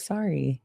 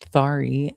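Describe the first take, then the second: First: The s sound is clear. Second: The s sound is lisped. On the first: "instead of" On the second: "having a little lisp, as I say to my mom"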